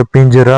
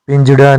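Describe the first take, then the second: First: पिंजरा with a plain r; correct form. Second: पिंजड़ा with a flapped ṛ; wrong form. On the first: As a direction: tap a simple र in पिंजरा. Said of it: "होता है". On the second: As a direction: flap the ड़ in पिंजड़ा. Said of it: "नहीं होता". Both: Shown as a demonstration.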